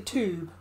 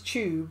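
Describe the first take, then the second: First: The word starts with a plain 't' sound. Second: The word starts with a 'ch' sound. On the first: "They say the tube" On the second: "We say it with a C H"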